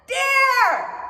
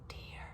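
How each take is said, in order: First: It is said very loudly. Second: It is said very quietly. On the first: "with a loud voice like this" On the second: "with a very quiet voice"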